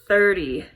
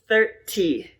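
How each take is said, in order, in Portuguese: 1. O t do meio é uma batida leve. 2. O t do meio é um t claro.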